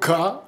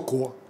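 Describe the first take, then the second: First: The vowel is reduced to an 'a' sound. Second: The vowel is a full 'o' sound. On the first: This is how the word is actually spoken. "мы говорим «ка»" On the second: This is the vowel the word is known to have. "но мы знаем, что «ко»"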